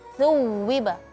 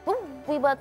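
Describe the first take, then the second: First: The word is pronounced softly and loosely. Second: The word is pronounced harshly and tensely. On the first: The speaker calls it right. "huruf-huruf rakhawa atau lentur jadi thuwiba" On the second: The speaker calls it wrong. "tuwiba terlalu keras ya"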